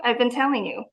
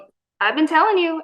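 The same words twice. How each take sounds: First: Said in the usual way. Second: High, quick and bright "I've been telling you"; told-you-so. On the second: Retold or imitated. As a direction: toss it off excitedly, a bit higher and faster. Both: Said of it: "And I'm like".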